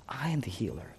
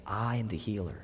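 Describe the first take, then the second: First: Whisper. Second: Said in the usual way. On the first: Acted. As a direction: repeat "I am the healer" in an unvoiced whisper. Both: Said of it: "He's saying".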